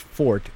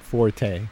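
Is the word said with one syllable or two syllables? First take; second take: one syllable; two syllables. First: The word is said as one syllable. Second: The word is said as two syllables. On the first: The speaker calls it right. "it's fort" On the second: The speaker calls it wrong. "It's not forte"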